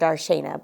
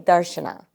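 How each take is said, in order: First: The second a is pronounced as a full syllable. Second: The second a is dropped, giving two syllables. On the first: The speaker calls it wrong. "someone might say it's Darshana" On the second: The speaker calls it right. "but it's really Darshana ... you kind of drop the second A"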